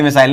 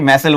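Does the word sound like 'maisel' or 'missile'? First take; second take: missile; maisel. First: It sounds like the word missile. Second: It sounds like maisel, with a short ending. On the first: The speaker calls it wrong. "मेरे मुंह से मिसाइल निकलता है" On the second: The speaker calls it right. "मैसेल बोलते हैं"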